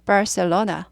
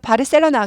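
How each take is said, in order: First: It is said with English sounds and a curled r. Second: It is said with Korean syllables and sounds. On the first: English listeners will understand it. The speaker calls it right. "영어식으로 꼭 발음해야 돼요" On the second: Native English listeners may not understand it. The speaker calls it wrong. "바르셀로나 그럼 잘 못 알아들어요"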